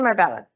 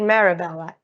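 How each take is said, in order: First: The word is said with three syllables. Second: An extra vowel splits the word into four syllables. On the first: The speaker calls it right. "It's chicken marbella" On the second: The speaker calls it wrong. "I always say chicken marabella, but it is not"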